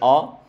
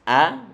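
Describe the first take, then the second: First: The vowel is thick and rounded like o. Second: The vowel is thin and open like a. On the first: The speaker calls it wrong. "nggak boleh o" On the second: The speaker calls it right. "A ini dia tipis"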